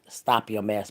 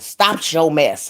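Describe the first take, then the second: First: It is said in a standard, careful pronunciation. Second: It is said in a Southern country accent. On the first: "I know how to say it right" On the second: "That's how they say it down country"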